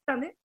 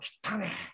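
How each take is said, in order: First: It has the intonation that means got a haircut. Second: It has the intonation that means dirty. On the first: The person got a haircut. "これはですね、散髪したということですね" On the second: The hair is called dirty. "抑揚によっては汚ね、これは汚いと言うんです"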